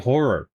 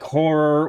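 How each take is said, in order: First: The two vowels are said as separate syllables. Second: The two vowels merge into one syllable. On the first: "I say horror" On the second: "like horror with one or"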